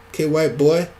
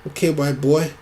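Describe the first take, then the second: The two takes are said the same way.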